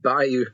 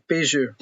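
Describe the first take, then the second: First: It is said like bayou, without a zh sound. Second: It is said like bijou, with a zh sound. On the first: The speaker calls it wrong. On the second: The speaker calls it right.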